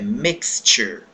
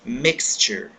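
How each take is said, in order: First: The x is said as ks. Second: The x is said as ks.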